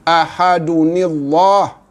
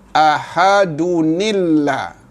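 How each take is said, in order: First: The lah sound is heavy and thick. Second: The lah sound is light and thin. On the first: The speaker calls it wrong. "Jangan dibaca ahadunillah, tidak sempurna" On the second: The speaker calls it right. "bunyi tebal bagi Allah ini bertukar menjadi bunyi nipis"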